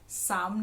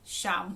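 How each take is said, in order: First: The word begins with an s sound. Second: The word begins with an sh sound. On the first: The speaker calls it wrong. "साम नहीं होती" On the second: The speaker calls it right. "शाम होती है"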